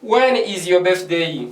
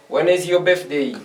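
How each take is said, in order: First: Slowed-down model question for the class; slow model read. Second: Said in the usual way. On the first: Shown as a demonstration. Teacher slowly models the question for French-speaking students, slow and clear. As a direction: say it slowly so students can copy. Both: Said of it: "j'ai dit".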